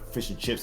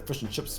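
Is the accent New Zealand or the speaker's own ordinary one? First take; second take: ordinary; New Zealand. First: It is said in the speaker's ordinary accent. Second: It is said with New Zealand vowels. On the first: "if they want a fish and chips" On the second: "they'll say fish and chips, bro"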